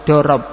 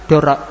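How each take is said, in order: The two takes are said the same way.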